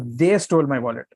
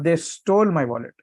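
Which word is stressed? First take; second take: They; stole. First: The stress is on "they". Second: The stress is on "stole".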